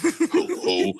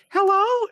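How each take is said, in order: First: The voice is low-pitched. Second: The voice is high-pitched. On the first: The speaker is deliberately sounding more masculine. "I had to lower my voice an octave" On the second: The caller might take the speaker for a girl. "I had a high pitched voice"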